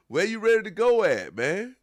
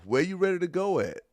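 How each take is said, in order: First: Much higher and louder, scoffing; loud mocking laugh-edged question; loud incredulous. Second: Pitched up, scoffing question; mock him for having nowhere to go; incredulous teasing; mocking disbelief. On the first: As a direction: really hammer the disbelief. Repeats louder, laughing disbelief. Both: Real, not acted.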